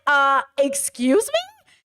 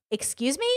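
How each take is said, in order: First: Slow, drawn-out incredulous question; exaggerated, affronted double-take; indignant. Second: Soft, quick questioning retort; understated disbelief, much softer; taken aback. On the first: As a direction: stretch it out in mock disbelief. Own retold indignant reaction, second take. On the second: Retold or imitated. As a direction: imitate a quietly affronted question. Retold offended reaction, first take.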